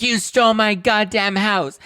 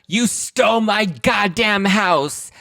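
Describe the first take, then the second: First: Much higher, slow, slurred yell; drunken accusation. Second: Slow, much higher, slurred yell; drunken accusation. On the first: Kim screams at sister Kyle in the limo, slurred. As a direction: wail each word, sloppy and furious. Kim's famous limo line. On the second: Kim accuses Kyle in the limo, slurred high yell. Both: Retold or imitated.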